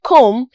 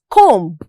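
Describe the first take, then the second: First: Comb said with a silent B, ending on M. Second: Comb with the final B sounded after the M; pronounced B. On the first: Teacher showing the word comb correctly, silent B. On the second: Teacher showing how not to say comb, B sounded. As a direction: finish comb on an audible B. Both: Shown as a demonstration. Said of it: "is not pronounced as comb".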